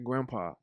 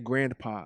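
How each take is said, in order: First: It is said with no n sound, like grampa. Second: It is said with an n sound before p. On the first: "I say grandpa" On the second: "I don't say grandpa"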